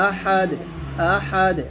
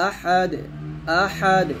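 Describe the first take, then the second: No difference in how they are said.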